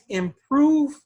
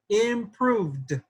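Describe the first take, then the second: First: The final d sound is dropped. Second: The final d sound is clearly heard. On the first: The speaker calls it wrong. "without the D, then it it doesn't sound right" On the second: The speaker calls it right. "I like that you pronounce that D"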